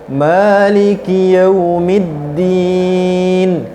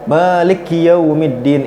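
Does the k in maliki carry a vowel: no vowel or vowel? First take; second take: vowel; no vowel. First: The k sound is followed by an i vowel. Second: The k sound is said with no vowel. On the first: The speaker calls it right. "Yang benar ... harokat kasroh pada huruf K-nya" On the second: The speaker calls it wrong. "huruf K-nya itu eh, sukun. ... itu salah"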